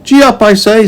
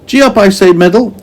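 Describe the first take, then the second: First: High, bright urging call to the animal; giddy-up shout, pitched high; Meddle's voice. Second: High urging call, a bit louder; Meddle's voice. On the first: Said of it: "said Meddle". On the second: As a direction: push the animal on, high voice. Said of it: "and he swished". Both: A narrator's reading.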